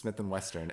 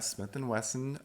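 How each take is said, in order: First: The last name is said with an r and t. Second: The last name is said without an r or t. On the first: The speaker calls it wrong. "I keep saying Western" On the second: The speaker calls it right. "You said it correctly this time"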